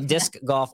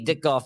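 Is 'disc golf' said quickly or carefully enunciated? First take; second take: enunciated; quickly. First: It is said slowly, with every sound clearly pronounced. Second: It is said quickly, with the sounds blurred together. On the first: The speaker calls it right. "you got to really enunciate that" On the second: The speaker calls it wrong. "it just comes out really fast"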